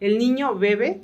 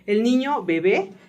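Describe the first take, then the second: First: The last word is stressed on its first syllable. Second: The last word is stressed on its second syllable. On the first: The child is drinking something. "te estoy diciendo que el niño está pues bebiendo algo" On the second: The child is a baby. "¿El niño o es bebé"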